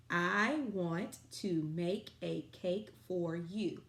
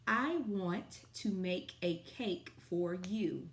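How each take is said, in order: First: Slow, even, louder dictation. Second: Slow, clear dictation pace. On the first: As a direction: repeat the sentence slowly and loudly. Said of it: "sight word sentence of the day". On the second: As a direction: read each word slowly for kids. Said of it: "Our sight word sentence of the day". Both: Shown as a demonstration.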